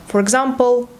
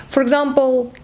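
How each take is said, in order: No difference in how they are said.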